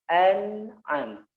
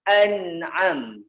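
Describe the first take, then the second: First: The n is touched lightly and sounds nasal. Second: The n is pressed hard against the gum. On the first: The speaker calls it right. "Ditaruh di hidung sedikit" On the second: The speaker calls it wrong. "Kalau dia ditekan"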